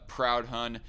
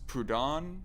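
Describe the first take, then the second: First: The name is said as English 'Proud Hun'. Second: The name is said as one smooth word. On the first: The speaker calls it wrong. "I pronounced it for the longest time as uh, Proud Hun" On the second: The speaker calls it right. "I think it's pronounced Proudhon"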